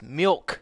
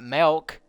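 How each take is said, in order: First: The vowel sounds like 'ih', as in milk. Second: The vowel sounds like 'eh', as in melk. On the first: The speaker calls it right. "There's an I. It's milk" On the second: The speaker calls it wrong. "There's not an E. It's not milk"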